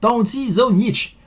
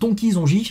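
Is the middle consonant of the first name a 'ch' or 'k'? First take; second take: ch; k. First: The first name has a ch sound. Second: The first name has a k sound. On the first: This is how the name is really pronounced. The speaker calls it right. "ça se prononce Taunchi Zonjich" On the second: This is how the name looks when read from the spelling. The speaker calls it wrong. "même si ça se lit Tonki Zonjich, bah non"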